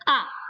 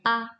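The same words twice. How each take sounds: First: The pitch falls sharply from high. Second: The pitch is short, light and unmarked. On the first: "nada keempat ... kita bilangnya A" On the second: "nada yang kelima itu ... normal. Misalnya A"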